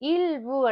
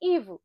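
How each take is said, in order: First: The L sound of 'il' is clearly pronounced. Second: The L sound of 'il' is dropped. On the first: "il vous என்று சொல்றது போல" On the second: "ivu வந்து அந்த ஈய மட்டும் ப்ரொனவுன்ஸ் பண்ணலாம்"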